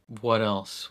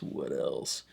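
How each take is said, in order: First: Said in the usual way. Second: Playfully dropped voice. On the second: Pretend. Reviewer stalling for the next topic, in a mock low voice. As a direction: sink it low, a mock-grave repeat. Musing aloud, repeating the question.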